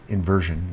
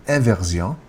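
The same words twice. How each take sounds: First: Said in the usual way. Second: Inversion said the French way, "an-vehr-zyon"; French pronunciation. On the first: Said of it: "so actually inversion in French". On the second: Shown as a demonstration. Teacher showing the French word, inversion as "an-vehr-zyon". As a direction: give inversion nasal French vowels and final stress. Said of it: "in French would be inversion".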